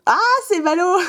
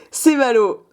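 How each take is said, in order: First: High, sing-song mock pity; teasing, on the edge of laughter; playful mock lament. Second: Said in the usual way. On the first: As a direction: repeat it with a gleeful high lilt. Repeats it playfully, then laughs.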